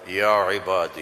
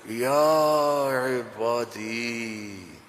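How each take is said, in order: First: It is said in a plain, flat tone. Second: It is said in a tender, loving tone.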